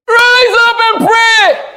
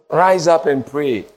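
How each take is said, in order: First: High, loud, slow command; preacher voicing God telling them to rise; commanding shout. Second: Said in the usual way. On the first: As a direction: thunder it like God calling.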